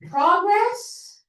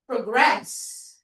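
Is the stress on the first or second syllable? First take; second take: first; second. First: The stress is on the first syllable. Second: The stress is on the second syllable. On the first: It is a noun. "Progress is the noun. ... pag noun, nasa first syllable yung stress" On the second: It is a verb. "Progress is the verb"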